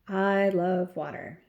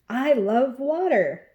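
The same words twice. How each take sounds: First: It is said in a flat, plain way. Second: It is said in an excited way.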